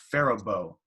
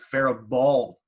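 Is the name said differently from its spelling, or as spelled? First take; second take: differently; as spelled. First: The name is said differently from its spelling. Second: The name is sounded out just as spelled. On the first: The speaker calls it right. "It's pronounced Faribault" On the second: The speaker calls it wrong. "spelt like we would pronounce it"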